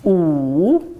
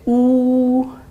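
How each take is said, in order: First: The pitch dips low, then rises again. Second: The pitch stays high and level. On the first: "Troisième ton" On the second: "premier ton plat"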